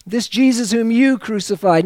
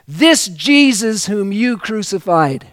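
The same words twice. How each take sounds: First: "you" hit hard in "This Jesus whom you crucified"; stress on you. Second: "this Jesus whom you crucified" with weight on "this", falling at the end; slower ending. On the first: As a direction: point the finger with "you". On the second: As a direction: lean on "this" and let it drop. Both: Shown as a demonstration.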